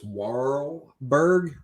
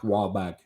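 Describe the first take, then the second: First: The name is said in a plain, non-Boston accent. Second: The name is said in a Boston accent. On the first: This is the original form of the name. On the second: This is how the name sounds from a Bostonian.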